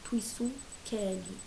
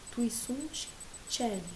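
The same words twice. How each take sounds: First: The word celi begins with a k sound. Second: The word celi begins with a ch sound. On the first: "ou que" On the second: "o C você pode ler tché"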